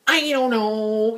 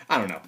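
First: Slow, higher, drawn-out whiny parody; mock annoying talker with stretched vowels. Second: Said in the usual way. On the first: Shown as a demonstration. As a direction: drag it out to be irritating. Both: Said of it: "'cause that's an annoying voice".

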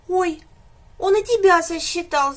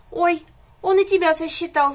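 First: High, loud little whine of a frightened calf; whimpering. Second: High, loud mock sob of a little calf; sobbing. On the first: Calf whimpers to the animals, high and loud. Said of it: "заскулил телёнок". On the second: Calf sobs as the pig is counted, high and loud. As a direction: gulp it out through a mock sob. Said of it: "всхлипнул телёнок". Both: A narrator's reading.

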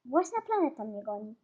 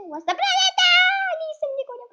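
First: Said in the usual way. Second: Very high, loud wail of outrage; alarmed shriek. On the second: Real, not acted. Player chased by her own planet, alarmed shriek. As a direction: shriek it high in playful panic.

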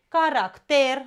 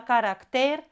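First: Caracter with the stress on the first syllable, CA-racter. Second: Caracter with the stress on the last syllable, carac-TER; correct caracter. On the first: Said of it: "nu e corect caracter". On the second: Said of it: "doar caracter". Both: Shown as a demonstration.

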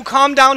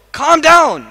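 First: Said in the usual way. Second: A louder, higher "Calm down". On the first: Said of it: "your friend says to you". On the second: Shown as a demonstration. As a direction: bark it firmly at him. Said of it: "Okay, so".

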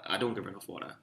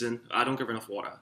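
First: Much softer, low and muttered to himself; quiet guilty repeat. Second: Said in the usual way. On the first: Real, not acted. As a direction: drop the voice as if confessing it.

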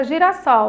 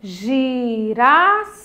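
First: Said in the usual way. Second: "Girassol" lento, GI-RAS... SOL; separado em sílabas. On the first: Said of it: "com a palavra girassol". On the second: Shown as a demonstration. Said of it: "A mesma coisa acontece". ("Girassol" silabado bem devagar)

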